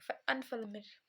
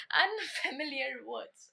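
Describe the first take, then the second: First: अनफेमिलियर tripped over, syllables swallowed as anfelmil; stumbling on the word. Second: अनफेमिलियर said carefully and slowly as an-fe-mi-li-yar; said correctly. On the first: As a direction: trip over अनफेमिलियर and lose the middle. (अनफेमिलियर पर अटकते हुए) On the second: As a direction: get अनफेमिलियर out clean and deliberate. (अनफेमिलियर को धीरे और साफ़ बोलते हुए) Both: Real, not acted. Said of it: "हम हकलाने लग जाते हैं".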